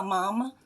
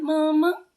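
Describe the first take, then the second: First: Said in the usual way. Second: Higher, louder pointed call; insistent loud Mama with a rise. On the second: Real, not acted. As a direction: demand she remember. Calling her mother out.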